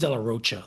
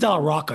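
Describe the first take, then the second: First: The name is said with a ch sound. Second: The name is said with a k sound. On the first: The speaker calls it right. "I think it's De La Rocha, the way he pronounces it" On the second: The speaker calls it wrong. "I don't think it's De La Rocca"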